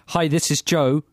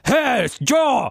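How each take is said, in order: First: It is said in a dull, bored way. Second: It is said in a lively, upbeat way.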